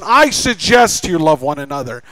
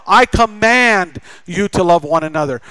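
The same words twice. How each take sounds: First: Mild suggestion. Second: Commanding. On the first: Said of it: "not suggests us to love". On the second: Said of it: "God commands us". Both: Shown as a demonstration.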